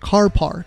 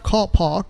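First: It is said with an American-style accent. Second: It is said with a British accent.

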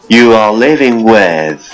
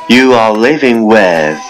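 The two takes are said the same way.

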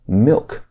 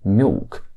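First: The L in milk is a clear consonant. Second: The L in milk sounds like a vowel.

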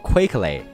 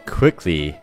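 First: The first vowel sounds like the 'ay' in quake. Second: The first vowel is a short, crisp 'i'. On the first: The speaker calls it wrong. "这个词也不读作quickly" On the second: The speaker calls it right. "它读作quickly，中间的元音是一个短促有力"

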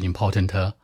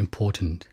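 First: The final sound is stressed with a trailing sound. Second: The word ends plainly without extra final stress.

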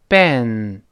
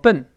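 First: It has an English 'e' vowel, lips spread. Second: It sounds like the Mandarin syllable bèn. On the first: The speaker calls it right. "中间它发哎这个声音，稍微往两边分开一点" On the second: The speaker calls it wrong. "而不要读成笨"

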